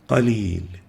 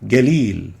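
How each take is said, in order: First: It starts with a deep uvular q sound. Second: It starts with a voiced g sound. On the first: The speaker calls it right. "We should say qalil" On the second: The speaker calls it wrong. "pronounced mistakenly as galil"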